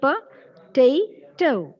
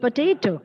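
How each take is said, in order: First: "potato" slowly in three parts, po, ta, to; split into syllables. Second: Said in the usual way. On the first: Shown as a demonstration. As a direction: clear pauses between the syllables of "potato". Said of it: "easily be split into". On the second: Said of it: "the word is potato".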